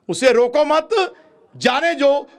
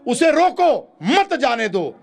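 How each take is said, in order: First: The pause comes after मत. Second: The pause comes after रोको.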